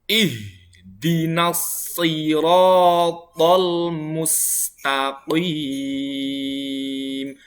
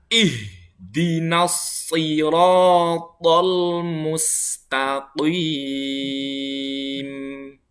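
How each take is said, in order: Both takes have the same delivery.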